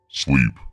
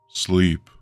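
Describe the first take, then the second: First: It is said loudly and forcefully. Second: It is said softly, without force.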